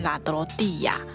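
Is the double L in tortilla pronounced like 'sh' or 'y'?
y. The double L sounds like 'y'. This is how it is said in Spain. "西班牙文念法，就是我们平常念的时候可能会念亚的音"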